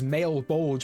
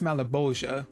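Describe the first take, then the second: First: The name is said as two syllables. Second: The name is said with four syllables. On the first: The speaker calls it wrong. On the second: The speaker calls it right.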